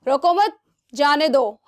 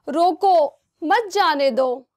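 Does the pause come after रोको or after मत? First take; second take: after मत; after रोको. First: The pause comes right after मत. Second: The pause comes right after रोको.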